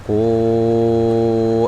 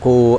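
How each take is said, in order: First: The vowel is held for five counts. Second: The vowel is held for only two counts. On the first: "kalau yang lima ya udah tinggal lima" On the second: "Dua aja berarti. Enggak panjang"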